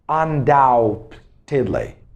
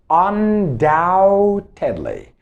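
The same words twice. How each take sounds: First: The b in the middle is pronounced. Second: The b in the middle is silent. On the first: The speaker calls it wrong. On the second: The speaker calls it right.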